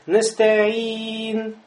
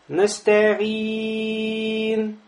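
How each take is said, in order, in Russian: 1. Гласный перед конечным n произносится умеренно долго. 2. Гласный перед конечным n произносится очень долго. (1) "Средняя долгота тоже с чистым сукуном" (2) "Длинная долгота"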